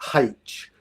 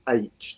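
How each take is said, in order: First: The letter name starts with an h sound. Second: The letter name starts with a vowel sound. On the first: The speaker calls it wrong. "it annoys me when people say H" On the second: The speaker calls it right. "correct pronunciation is H"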